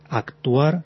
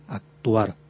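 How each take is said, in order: First: The c is pronounced as a full k. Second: The c is softened to a g sound. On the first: The pronunciation is emphatic and a bit pedantic. "pronunciando exactamente la consonante que está escrita" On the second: The pronunciation is softer and less pedantic. "En lugar de una K, pronunciar una G"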